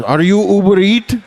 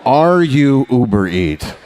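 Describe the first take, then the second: First: Put-on high Indian accent, rising question; delivery guy Indian accent. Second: Put-on slow drawn-out Indian accent, falling; slower delivery guy accent. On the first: Comic asks the customer in a put-on Indian accent. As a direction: mimic the delivery driver checking your name. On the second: Comic repeats the driver's question in a slow Indian accent. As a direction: repeat the question slowly, savouring it.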